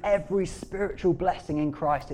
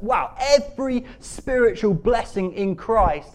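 First: Said in the usual way. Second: Slow, loud, higher marvelling; awestruck emphasis. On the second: Real, not acted. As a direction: savour each word in loud amazement. Marvels at the verse just read.

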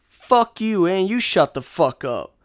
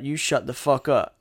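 First: Louder, biting fuck you; telling the heckler off, heated; angry retort. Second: Said in the usual way. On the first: Real, not acted. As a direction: snap it back at him hard. Firing back at the heckler.

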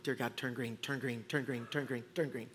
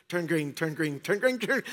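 First: Very soft, lower pleading; desperate muttered prayer. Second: Said in the usual way. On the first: Retold or imitated. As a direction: beg the light under your breath. Praying at red light.

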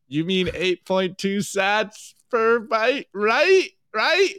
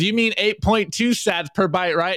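First: Slow, then climbing much higher on right right; mock anxious plea, pitch rising at the end; worried Padme. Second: Said in the usual way. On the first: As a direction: let the worry creep in as she repeats it. Padme meme, worried repeat.

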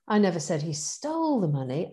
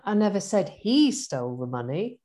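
First: Stole rising, stressed. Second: He lifted and stressed. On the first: Coaching demo of one sentence, stress on stole. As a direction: lean on the word stole. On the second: Coaching demo of one sentence, stress on he. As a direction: hit the word he. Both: Shown as a demonstration. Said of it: "Oh, I missed one out".

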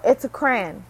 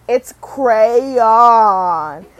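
First: "crayon" squashed into one syllable, "cran", firmly; fast pronunciation. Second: "crayon" loud and stretched, cray-ON; drawn-out correction. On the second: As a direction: mimic a corrector dragging out "crayon" in two syllables. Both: Retold or imitated. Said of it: "You say it fast".

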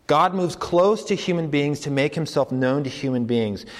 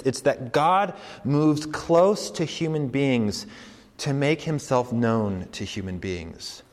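First: Said in the usual way. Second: Slow, weighing each word; slow deliberate claim. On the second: Shown as a demonstration. Preacher stating the radical claim slowly. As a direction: spell out the bold claim slowly. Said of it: "repeats claim".

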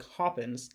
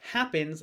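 First: "Hoppins" with a broad open ah in the first syllable; British-sounding sung vowel on "Hoppins". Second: Said in the usual way. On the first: Shown as a demonstration. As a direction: say "Hoppins" choir-proper, AH for the short a. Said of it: "like, open ah, a, ah vowel when you're singing". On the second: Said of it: "instead of saying, like, happens".

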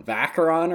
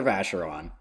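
First: Hard k for the ch in "Vacheron". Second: Soft sh for the ch in "Vacheron". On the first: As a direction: say "Vacheron" as VAK-er-on. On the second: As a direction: say "Vacheron" as VASH-er-on. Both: Shown as a demonstration. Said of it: "What's on his tombstone?".

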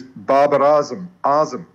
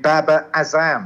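First: Babar Azam said BAH-bar AH-zum, long ah vowels; correct pronunciation. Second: Babar Azam flattened to BABB-a a-ZAMM; short a in Babar, Azam stressed on a drawn ZAM; mispronunciation. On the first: Shown as a demonstration. Teaching the surname of Pakistan's captain, correct pronunciation of Babar Azam. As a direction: stress the first syllable of Azam, open AH. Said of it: "And it's not Azam". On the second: Retold or imitated. Mimicking commentators who get the name wrong, mispronounced Babar Azam. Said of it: "the number of commentators who".

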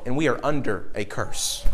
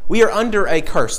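First: Quiet, grave. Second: "We are under a curse" said plainly firm, WE stressed; firm emphatic repeat. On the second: Preacher repeating the line to drive it home, emphatic. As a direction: press the repeat home to the congregation. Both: Shown as a demonstration.

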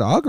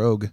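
First: "Ogg" said "ahg", with open AH; open AH vowel. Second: "Og" said "ohg", with long O; long O vowel. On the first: Friend wonders about the actor's surname, "Ogg" with AH. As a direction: give "Ogg" an open AH sound. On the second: Friend gives the surname's alternative, "Og" with long O. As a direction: give "Og" a rounded long O. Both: Shown as a demonstration. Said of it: "is it Ogg or Og?".

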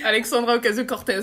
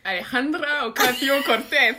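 First: Alexandra Ocasio-Cortez said the plain French way, every syllable French; French pronunciation. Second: A hint of Spanish accent, slow and careful on the name. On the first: Co-host settling for saying the name French-style, plain. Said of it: "à la française". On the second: Co-host asked to say the guest's name in her best accent, lightly Spanish. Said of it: "avec mon plus bel accent". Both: Shown as a demonstration.

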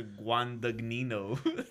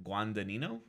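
First: Guandagnino with a hard G before "nino"; second G sounded. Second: Guandanino with no G before "nino"; tentative Guandanino, gliding straight into "nino"; silent second G. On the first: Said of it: "There is a second G". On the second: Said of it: "you probably don't say the second G". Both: Shown as a demonstration.

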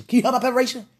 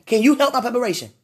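First: Said in the usual way. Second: Quick, insistent ask; faster urgent plea. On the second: Real, not acted. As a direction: push the question out faster.

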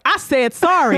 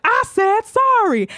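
First: Higher, mock-indignant retort; imitated defiant bully. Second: Slow, high, drawn-out mock threat; imitated menacing bully. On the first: Rosa gets up to answer dad, mock defiant. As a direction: throw the apology back, lightly hammed-up. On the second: Rosa advances on the father, exaggerated defiance. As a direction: stretch the apology into a hammed-up challenge.

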